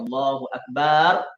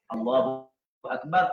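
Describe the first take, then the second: First: The vowel after the b is drawn out long. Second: The vowel after the b is short. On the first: God is a drum. The speaker calls it wrong. "Allah itu gendang" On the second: God is the greatest. The speaker calls it right. "Allah Maha Agung"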